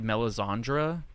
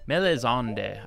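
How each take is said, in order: First: The name is said with an R sound. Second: The name is said without an R sound. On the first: The speaker calls it wrong. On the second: The speaker calls it right.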